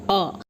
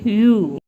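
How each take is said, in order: First: The vowel is short, as in cup. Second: The vowel is long, as in cute. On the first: "the short vowel sound" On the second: "Long U"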